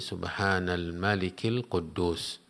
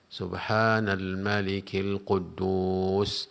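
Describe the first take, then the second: First: It is said at normal length. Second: It is said drawn out, lengthened.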